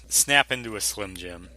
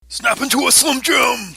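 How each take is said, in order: First: It is said in an ordinary speaking voice. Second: It is said in an exaggerated put-on impersonation voice. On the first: "not say it in the Macho Man voice" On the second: "your best Macho Man snap into a Slim Jim"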